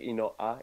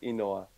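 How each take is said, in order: First: A glottal stop breaks the word. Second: The word flows without a glottal stop. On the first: The speaker calls it wrong. "How you're saying it, it's like inoa" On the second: The speaker calls it right. "there's no like, was it like a glottal stop"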